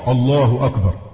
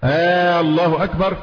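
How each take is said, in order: First: The opening vowel is short. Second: The opening vowel is drawn out long. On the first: It states that God is greatest. The speaker calls it right. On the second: It asks whether God is greatest. The speaker calls it wrong.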